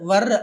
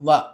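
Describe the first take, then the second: First: The word ends with a sounded r. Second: The word ends on a vowel, r silent. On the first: The speaker calls it wrong. "అంతేగాని వర్ అని అనక్కర్లేదు" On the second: The speaker calls it right. "So ఆర్ని silent చేస్తున్నాం"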